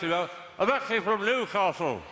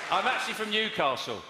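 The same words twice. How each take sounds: First: Slow, as if through a mouthful of cake; mouth full. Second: Mock Newcastle accent. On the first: Real, not acted. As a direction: speak round a bite of cake. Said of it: "It's just what cake does to my accent". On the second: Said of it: "He said".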